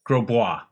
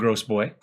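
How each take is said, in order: First: The name does not sound like 'gross boy'. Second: The name sounds like English 'gross boy'. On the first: The speaker calls it right. "for the correct pronunciation" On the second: The speaker calls it wrong. "We're going to continue to call him Gross Boy"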